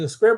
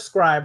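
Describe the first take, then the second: First: The vowel is short, as in 'bib'. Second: The vowel is long, as in 'bribe'. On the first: This is how the company says the name. "The company says Scrib" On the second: This is how the speaker used to say the name. "I used to say Scribe"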